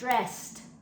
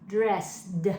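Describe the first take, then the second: First: It is said quickly, ending in t. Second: It is sounded out slowly, ending in d. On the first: "When we say fast, I got dressed. Do you hear how it sounds like a t?" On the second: "when we read it, we read it dressed"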